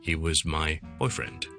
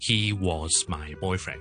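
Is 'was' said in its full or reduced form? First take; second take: reduced; full. First: The word 'was' is weak and reduced. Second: The word 'was' is strong and full. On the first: The speaker calls it right. "我可以话咧" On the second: The speaker calls it wrong. "就唔会咧读成咧…咁咧就太夸张啦"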